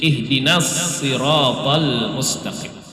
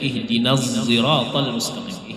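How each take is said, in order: First: The s of sirat is a plain emphatic s. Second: The s of sirat is blended with a z.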